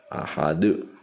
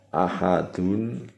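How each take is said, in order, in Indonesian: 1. Kata ini diakhiri pada konsonan henti yang memantul. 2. Kata ini diakhiri dengan akhiran sengau penuh. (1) "dibaca ahadu" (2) "Contohnya ahadun"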